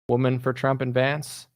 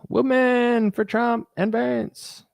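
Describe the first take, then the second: First: It is read out in a plain voice. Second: It is said in a put-on imitating voice. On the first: A comment is simply read aloud. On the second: It mocks the person who wrote the comment.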